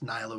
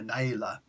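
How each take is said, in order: First: The name is said with an American pronunciation. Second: The name is said with an Arabic pronunciation. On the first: "a more Americanized uh, name of a way of saying it" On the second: "Arabic name Naila"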